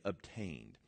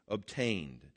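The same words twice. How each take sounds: First: Obtained dropped very soft and low, falling; almost whispered word. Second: Obtained said low and drawn, savoured; savoured word. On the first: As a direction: breathe Obtained softly. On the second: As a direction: linger on Obtained, low and falling. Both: Shown as a demonstration. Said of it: "That word is a great word".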